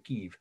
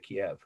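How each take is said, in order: First: The name is said the way Ukrainians avoid. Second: The name is said the way Ukrainians say it. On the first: This is not how Ukrainians name their capital in English. "they don't say Kiev" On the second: This is how Ukrainians name their capital in English. "they say Kiev"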